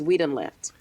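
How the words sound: The word done is unstressed. "That use of done is generally unstressed"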